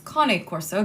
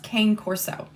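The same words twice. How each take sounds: First: Cane is said with Italian two-syllable pronunciation. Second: Cane is said like the English word cane. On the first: The speaker calls it right. "because it is Italian" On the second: The speaker calls it wrong. "It's not pronounced Cane Corso"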